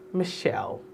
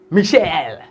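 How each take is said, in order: First: Michelle soft and smooth, mi-SHELL; name with finesse. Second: Michelle loud and hard, mee-SHELL; slapped-out name. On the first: Shown as a demonstration. Host corrects Michelle, with soft finesse. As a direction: breathe out Michelle gently. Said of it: "you have to have a little finesse". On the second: Retold or imitated. Host shows the wrong Michelle, slapping it out. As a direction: slap out Michelle with a heavy second syllable. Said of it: "It's not".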